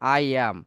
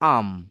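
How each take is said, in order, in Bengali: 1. দুটো পূর্ণ শব্দ, I আর am, বলা হচ্ছে। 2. শুধু একটা হ্রস্ব am ধ্বনি বলা হয়। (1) "আই এর সাথে কি করি আমরা?" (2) "অথবা অনেক সময় বলা যায় আম।"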